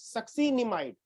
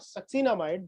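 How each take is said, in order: First: The vowel before 'mide' is an 'i' sound. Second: The vowel before 'mide' is an 'a' sound. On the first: The speaker calls it right. "This is" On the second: The speaker calls it wrong. "कुछ बच्चे ऐसे गलती से सक्सिनामाइड बोलते हैं, that is not"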